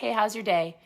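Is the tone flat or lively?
flat. It is said in a flat, dull way.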